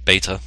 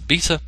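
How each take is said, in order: First: It is said in an American accent. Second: It is said in a British accent.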